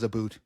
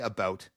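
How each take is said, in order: First: The vowel sounds like 'oot', as in 'aboot'. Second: The vowel sounds like 'out', as in 'about'. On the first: This is a stereotype that Canadians do not actually say. The speaker calls it wrong. "no one in Canada says about. It's not a word" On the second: This is how Canadians actually say it. The speaker calls it right. "We all say about"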